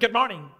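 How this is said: The greeting is said in a short, curt tone. The person answers but is annoyed. "And just their tone"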